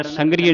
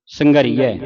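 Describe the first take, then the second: First: ਸੰਘਰੀਏ clipped to "san-gri-ye"; wrong closed ending. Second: ਸੰਘਰੀਐ loudly, ending "ree-ai"; open "ai" ending. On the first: Teacher warns against it, ਸੰਘਰੀਏ with closed "e" ending. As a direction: end ਸੰਘਰੀਏ on a narrow "e". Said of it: "ਸੰਘਰੀਏ ਨਹੀਂ ਪੜ੍ਹਨਾ". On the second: Teacher corrects the mistake, ਸੰਘਰੀਐ with open "ai" ending. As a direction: give ਸੰਘਰੀਐ a long "ee", then open "ai". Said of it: "ਸੰਘਰੀਐ ਉਚਾਰਨ ਕਰਨਾ". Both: Shown as a demonstration.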